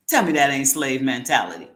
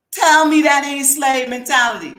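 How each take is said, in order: First: Said in the usual way. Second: Louder and higher, hammering the repeat; emphatic repeat. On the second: Real, not acted. Host challenges viewers on slave mentality, loud and higher. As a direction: throw it back at them, demanding an answer.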